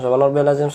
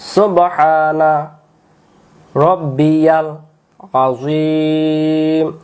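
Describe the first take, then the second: First: It is said quickly, with the words run together. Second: It is said slowly, with pauses between words. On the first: The speaker calls it wrong. "একবারে মনে খতম তারাবি পড়াচ্ছে, এভাবে কেউ পড়বেন না" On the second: The speaker calls it right. "এবার আমি থেমে থেমে পড়বো"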